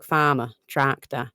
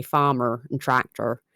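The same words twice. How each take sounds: First: Farmer, tractor with silent R's, drawn out; Norfolk pronunciation. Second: Farmer and tractor with sounded R's; West Country pronunciation. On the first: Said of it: "whereas in Norfolk". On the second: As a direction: roll out a rhotic R in "farmer" and "tractor". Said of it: "a West Country accent, you say". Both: Shown as a demonstration.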